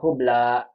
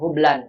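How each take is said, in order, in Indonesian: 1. Kata ini diakhiri vokal tanpa n. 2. Kata ini diakhiri bunyi n tambahan. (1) "Mau bilang hubla begitu" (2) "bukan hublan. Kalau hublan kan bertanwin"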